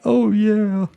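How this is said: It is said in a crying, sobbing way.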